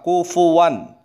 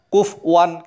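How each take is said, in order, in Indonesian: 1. Ada vokal u setelah f. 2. Tidak ada vokal setelah f. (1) "fa-nya di dhammah" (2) "fa-nya disukun"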